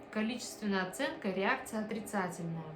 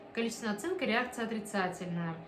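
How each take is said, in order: Both takes have the same delivery.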